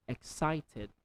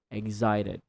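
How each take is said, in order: First: Excited with a clear K, ek-sited; standard excited. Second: Excited with a G, egg-zited; American excited. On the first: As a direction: keep the k in Excited. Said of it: "in standard English". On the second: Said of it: "American accent, that is excited". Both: Shown as a demonstration.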